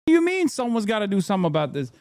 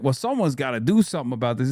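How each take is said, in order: First: Incredulous. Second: Mock whiny politician. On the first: Real, not acted. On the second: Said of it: "they're always doing like".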